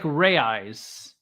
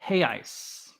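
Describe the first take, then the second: First: It is read out the English way. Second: It is said the Portuguese way, like 'hey ice'. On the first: The speaker calls it wrong. "even though it looks like Reais" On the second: The speaker calls it right. "it's actually pronounced Reais"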